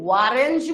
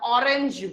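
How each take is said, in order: First: The word begins with a 'w' sound. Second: The word begins with a plain vowel sound. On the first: The speaker calls it wrong. "এটা কি ওয়ারেঞ্জ বলি" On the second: The speaker calls it right. "অরেঞ্জ বলি"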